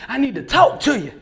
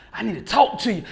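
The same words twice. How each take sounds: First: Louder, pressing second ask; insistent repeat. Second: Said in the usual way. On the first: Retold or imitated. Old man pulling Billy aside, louder insistent repeat. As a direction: push harder the second time.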